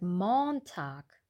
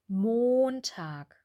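First: The o in the first syllable is short. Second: The o in the first syllable is long. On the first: The speaker calls it wrong. "Einige haben gesagt Montag" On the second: The speaker calls it right. "die Wörter mit dem langen O"

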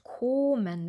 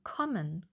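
First: The O vowel is held long. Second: The O vowel is short and quick. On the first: The speaker calls it wrong. "Wir sagen nicht kommen" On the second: The speaker calls it right. "wir sagen kommen"

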